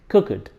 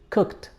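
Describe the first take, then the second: First: The -ed ending is not pronounced as t. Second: The -ed ending is pronounced as t. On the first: The speaker calls it wrong. "I get to hear this mistake very often" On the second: The speaker calls it right. "The ed is pronounced as t"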